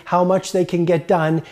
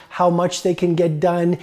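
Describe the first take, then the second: No difference in how they are said.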